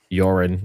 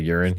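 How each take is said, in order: First: The word is said in a mimicked regional accent. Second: The word is said in the speaker's ordinary accent. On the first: Someone else says it this way. "the way he says some of his words, almost like a Wisconsin" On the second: This is the usual way to say it. "instead of"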